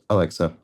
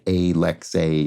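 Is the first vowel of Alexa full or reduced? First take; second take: reduced; full. First: The first vowel is a weak, reduced schwa. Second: The first vowel is a full, strongly voiced vowel. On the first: The speaker calls it right. "It's Alexa. It's just a little, it's a little schwa" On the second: The speaker calls it wrong. "It's not strongly voiced like a lexe"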